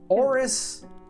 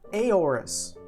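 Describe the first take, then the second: First: The name begins directly with the O. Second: An extra vowel is sounded before the O. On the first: This is how the speaker's own circle says the name. "if you got rid of the A and you just read it as is, it would be Oris" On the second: This is how most other people say the name. "they see the A and that confuses them, so immediately they go to Aorus"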